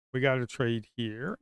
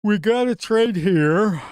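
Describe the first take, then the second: First: Said in the usual way. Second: Higher, louder, stretched-out call; loud drawn-out urging. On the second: Real, not acted. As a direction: drag out a pleading shout. Urging himself to trade.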